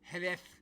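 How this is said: It is said with a Castilian Spanish pronunciation. The speaker calls it right. "if you're a Castilian Spanish speaker, it's Jerez"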